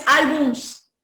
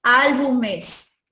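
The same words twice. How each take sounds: First: Álbums ending straight in -ms, no e; wrong plural álbums. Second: Álbumes drawn out slowly, ending in -mes; slow álbumes with a full -es syllable; correct plural álbumes. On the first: Teacher warns students off a form, álbums with bare -ms. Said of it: "No es álbums". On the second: Teacher gives students the right plural, slow álbumes ending -es. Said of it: "sino álbumes". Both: Shown as a demonstration.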